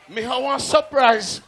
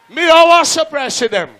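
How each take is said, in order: First: Laughing. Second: Higher, loud MC hype; loud announcement. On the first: MC teasing a surprise. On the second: MC promises the crowd a surprise, loud hype announcement. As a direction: announce it to the whole dance. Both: Real, not acted.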